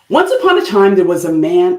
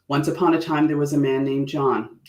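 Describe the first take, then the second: First: It is said with very high energy. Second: It is said with calmer, lower energy.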